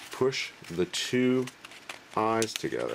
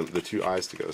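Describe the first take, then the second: First: Drawn out, each word stretched slowly and pitched up; walk them through it slowly; slow emphasis. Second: Said in the usual way. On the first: Shown as a demonstration.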